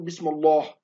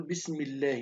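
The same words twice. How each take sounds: First: بسم الله with a heavy, dark L, as not to say it; wrong heavy L. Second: بسم الله softly, with a thin, light L; quiet, light L in الله. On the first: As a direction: thicken the L in الله to show the error. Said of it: "ما ينفعش نقول". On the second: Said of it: "نقول". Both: Shown as a demonstration.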